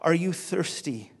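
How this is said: It sounds warm and hospitable.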